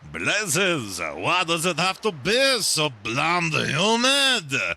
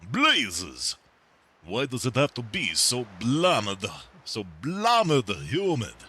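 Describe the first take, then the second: First: It is spoken in a French accent. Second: It is spoken in an Eastern European accent.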